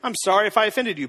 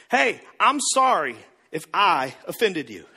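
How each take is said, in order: First: Defensive rushed apology. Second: Said in the usual way. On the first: Retold or imitated. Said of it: "some of you are like". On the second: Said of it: "We say s-, stuff like this".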